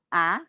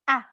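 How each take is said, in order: First: The falling syllable sounds hesitant and weak. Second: The falling syllable sounds firm and forceful. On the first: The speaker calls it wrong. "tidak boleh ragu-ragu" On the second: The speaker calls it right. "benar-benar marah atau kita berbicara tegas"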